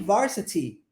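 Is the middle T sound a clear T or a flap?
clear T. The middle T is a clear T. "Como que o britânico pronunciaria isso? ... como T com som de T"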